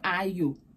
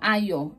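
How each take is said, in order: First: The name ends with a 'you' sound. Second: The name ends with a 'yo' sound. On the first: The speaker calls it wrong. "not Ayo" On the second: The speaker calls it right. "you should have just told them it's yo"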